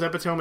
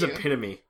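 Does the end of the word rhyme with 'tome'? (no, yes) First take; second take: yes; no. First: The word's ending rhymes with tome. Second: The word's ending does not rhyme with tome. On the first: The speaker calls it wrong. "I used to think it was epitome as well, because I was thinking of Fire Emblem and like the tomes" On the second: The speaker calls it right. "It is epitome"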